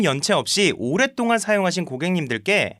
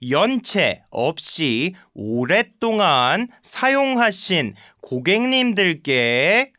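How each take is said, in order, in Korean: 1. 화자 본인의 자연스러운 말투로 말했습니다. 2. 어색하게 흉내 낸, 꾸민 말투로 말했습니다. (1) "제가 그냥 제 말투로 읽긴 했는데" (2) "식으로 뭔가 병신같이 말하길래"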